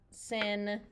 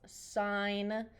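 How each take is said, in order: First: The vowel is short, as in pin. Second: The vowel is long, as in line. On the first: The speaker calls it wrong. "It's not sin" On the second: The speaker calls it right. "It's sign, like literally like a stop sign"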